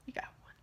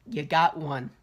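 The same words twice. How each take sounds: First: Much softer echo to himself; quiet aside. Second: Said in the usual way. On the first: Shown as a demonstration. Reviewer echoing his own praise, barely audible. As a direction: mutter the repeat under your breath.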